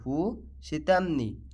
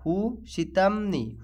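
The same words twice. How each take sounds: First: হু সিতামনি said slowly, each syllable clear; slow it down so students can copy হু সিতামনি; slow teaching repeat. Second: Said in the usual way. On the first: Shown as a demonstration. Teacher repeats the Arabic phrase for students, slowly. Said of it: "এর আরবি হবে হু সিতামনি".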